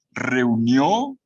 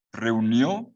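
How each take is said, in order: First: "Reunió" said loud with a rising tune; stressed verb. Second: Said in the usual way. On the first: Shown as a demonstration. Teacher punching "Reunió" loudly for the class. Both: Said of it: "atención con los verbos".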